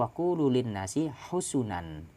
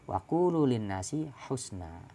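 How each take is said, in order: First: The last word is said husunan. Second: The last word is said husna. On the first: This is a rare, irregular reading. "husunan bidhammataini" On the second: This is another variant reading. "husna kabusra"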